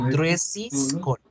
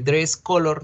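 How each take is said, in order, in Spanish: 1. Una sílaba extra 'iz' sigue a 'dress'. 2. No sigue ninguna sílaba extra a 'dress'. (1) "Ojo que no me están haciendo la pronunciación" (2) "si ustedes no hacen ese, ese sonido"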